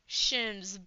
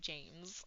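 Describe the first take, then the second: First: The name starts with 'sh' and a short vowel. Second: The name starts with 'j' and an 'ay' vowel. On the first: A foreign speaker mispronounces the name. "He pronounced it Shims" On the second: The normal English form of the name. "instead of James"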